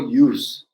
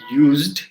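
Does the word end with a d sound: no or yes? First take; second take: no; yes. First: The word ends without any d sound. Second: The word ends with a clear d sound. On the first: The speaker calls it right. "I just go use and to" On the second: The speaker calls it wrong. "So I don't go like used"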